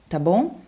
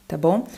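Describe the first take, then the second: Both takes have the same delivery.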